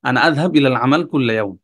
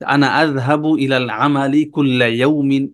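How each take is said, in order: First: The short vowel endings on the words are dropped. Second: The short vowel endings on the words are pronounced. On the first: This is how people talk in everyday speech. "তাদের এই জবরজের খুব বেশি ব্যবহার তারা করে না। এভাবে বলে" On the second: This is the full formal reading form, hard for speaking. "এই যে প্রত্যেকটা জবরজের দিয়ে আসলে এভাবে কথা বলাটা অনেক কঠিন।"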